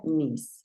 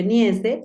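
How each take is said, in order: First: "niece" as one syllable, "nees"; English pronunciation. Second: "niece" read letter by letter as in Spanish, "ni-e-ce"; niece como se escribe. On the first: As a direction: say "niece" with one long ee and a final s. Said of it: "pero se pronuncia niece". ("niece" pronunciado en inglés, como "nis") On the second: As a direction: say "niece" with Spanish spelling sounds, both vowels and final e voiced. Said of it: "Se escribe niece". ("niece" leído tal como se escribe, en español) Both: Shown as a demonstration.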